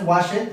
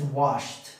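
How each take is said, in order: First: The ending is said as an extra syllable. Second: The ending is only a short t sound. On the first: The speaker calls it wrong. "No es wash it" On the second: The speaker calls it right. "Termina con el sonido de la t"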